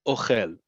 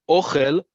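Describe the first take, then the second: First: "ochel" as o-KHEL, falling at the end; last-syllable stress. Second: "ochel" as OH-khel, higher and louder; first-syllable stress. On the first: Teacher contrasts the verb eats, stress on KHEL in "ochel". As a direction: put the weight on khel in "ochel". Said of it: "accent on the last syllable". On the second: Teacher contrasts the noun food, stress on OH in "ochel". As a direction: hit the O of "ochel" and lift the word. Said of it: "emphasis on the first syllable". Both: Shown as a demonstration.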